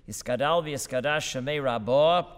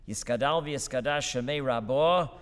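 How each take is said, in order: The two takes are said the same way.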